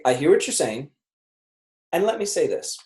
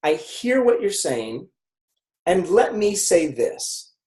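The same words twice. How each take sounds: First: Even, calm empathy line; calm empathetic pivot. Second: Slow, calm and even; slow steady empathy line. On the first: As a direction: acknowledge then pivot, calmly. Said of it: "I say". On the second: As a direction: say it like you truly listen. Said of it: "so I say". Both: Shown as a demonstration.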